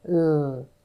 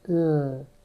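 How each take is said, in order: The two takes are said the same way.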